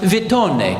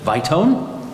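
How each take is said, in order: First: The name is said with an Italian pronunciation. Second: The name is said with an English pronunciation. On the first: The speaker calls it right. "should be pronounced Vitone, because she's a nice Italian lady" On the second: The speaker calls it wrong. "instead she pronounces it Vitone?"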